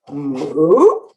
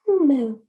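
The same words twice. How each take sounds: First: It is said as a question, rising. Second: It is said as a plain statement, falling.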